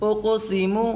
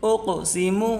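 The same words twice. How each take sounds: Both takes have the same delivery.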